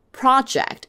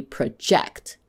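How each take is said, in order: First: "project" as PRO-ject; noun stress. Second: "project" as pruh-JECT; verb stress. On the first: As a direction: stress the first syllable of "project". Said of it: "is a noun". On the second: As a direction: stress the second syllable of "project". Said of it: "as a verb". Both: Shown as a demonstration.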